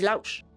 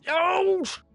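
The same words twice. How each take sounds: First: The word is said calmly at normal volume. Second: The word is shouted loudly and sharply. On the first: The speaker gives a calm command. The speaker calls it right. "J'ai dit lâche" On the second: The speaker is yelling at the dog. The speaker calls it wrong. "Mais j'ai pas dit lâche! J'ai pas dit ça"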